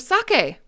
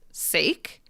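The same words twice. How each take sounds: First: It is said with two syllables, like sah-keh. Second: It is said with one syllable, rhyming with bake. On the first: It is the Japanese alcohol. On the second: It is the end of the English word namesake.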